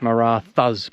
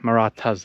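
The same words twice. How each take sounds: First: The name is said as its English spelling suggests. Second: The name is said in the native Marathi way. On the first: The speaker calls it wrong. "So it's like Marathas" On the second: The speaker calls it right. "but Marathas, that's how you say it"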